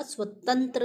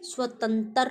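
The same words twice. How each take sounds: First: स्वतंत्र ending in a joined "tra"; corrected "swatantra"; correct pronunciation of स्वतंत्र. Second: स्वतंत्र said as "swatantar"; wrong pronunciation of स्वतंत्र. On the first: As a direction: keep त and र together in स्वतंत्र. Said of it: "स्वतंत्र होता है". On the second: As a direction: split the end of स्वतंत्र into "tar". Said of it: "नहीं होता". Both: Shown as a demonstration.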